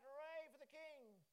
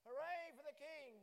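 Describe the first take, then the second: First: Slow, drawn-out cheer, higher. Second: A big, slow, much louder shout for the king; loud cheer. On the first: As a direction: lead the crowd in a cheer, slowly. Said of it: "Cheer and shout". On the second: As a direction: rouse a quiet congregation with a full cheer. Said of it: "Oh, they're quiet this morning". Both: Shown as a demonstration.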